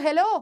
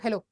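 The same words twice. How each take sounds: First: The word is said in an angry tone. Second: The word is said without an angry tone. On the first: The speaker is angry at the person. "मैं उस पर गुस्सा हूं।" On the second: The speaker is not greeting the person. "मैं इसको greet तो नहीं कर रही।"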